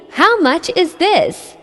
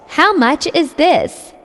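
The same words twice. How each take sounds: The two takes are said the same way.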